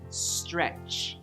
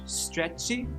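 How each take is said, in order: First: The word ends cleanly on the ch sound. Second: An extra vowel is added after the final ch. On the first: The speaker calls it right. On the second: The speaker calls it wrong. "Stretchy? No, no"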